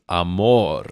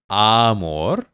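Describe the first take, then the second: First: "amor" stressed on the second syllable, a-MOR; correct stress. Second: "amor" stressed on the first syllable, AH-mor; wrong stress. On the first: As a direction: keep the A of "amor" light and lean on MOR. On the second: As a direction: punch the A of "amor", let "mor" fall away. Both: Shown as a demonstration. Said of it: "the emphasis on the word is amor".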